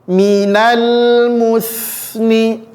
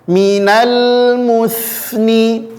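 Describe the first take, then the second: The two takes are said the same way.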